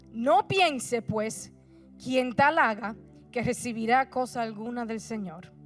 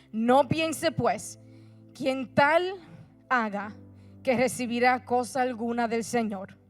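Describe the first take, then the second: No difference in how they are said.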